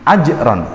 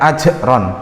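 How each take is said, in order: First: The j sound is held back with little air. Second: The j sound releases a lot of air. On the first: The speaker calls it right. "tapi ajron" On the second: The speaker calls it wrong. "bukan ajron"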